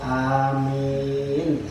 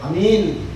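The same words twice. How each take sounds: First: Both vowels are said long. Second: Both vowels are said short. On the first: May God grant the prayer. The speaker calls it right. "Tapi kalau panjang-panjang" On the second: It means safe. The speaker calls it wrong. "Banyak salah kaprah pendek-pendek"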